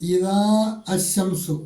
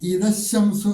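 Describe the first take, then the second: First: The two words are said separately. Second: The two words are run together.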